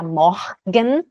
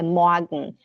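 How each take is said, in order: First: "morgen" with a sounded R and full "-gen"; wrong pronunciation. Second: "morgen" with the R softened into a light A; soft A-like R. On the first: Teacher showing students how not to say it, "morgen" with every letter sounded. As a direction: say "morgen" as written, both syllables fully pronounced. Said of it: "A gente não fala morgen". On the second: Teacher correcting students, "morgen" with a light A for the R. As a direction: say "morgen" as "MO-a-gn", swallowing the last vowel. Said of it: "é um leve som de A". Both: Shown as a demonstration.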